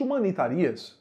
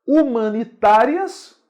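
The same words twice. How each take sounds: First: "humanitarias" stressed on RI. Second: "humanitárias" slow and loud, stressed on TÁ. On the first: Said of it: "não existe". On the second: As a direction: punch out "humanitárias" as hu-ma-ni-TÁ-rias. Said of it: "só com acento". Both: Shown as a demonstration.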